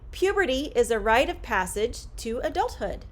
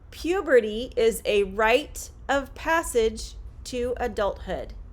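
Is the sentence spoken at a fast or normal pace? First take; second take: fast; normal. First: The sentence is spoken at a faster pace. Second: The sentence is spoken at a normal pace.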